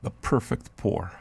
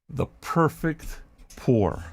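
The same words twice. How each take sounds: First: ASMR hush. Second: Slow ASMR drawl. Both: Pretend. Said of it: "I'm gonna do the M S R for you".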